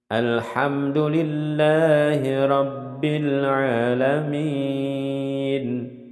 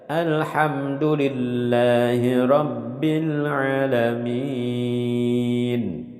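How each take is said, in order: The two takes are said the same way.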